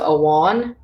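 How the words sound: The middle consonant sounds like a W. "M H will sound like a W"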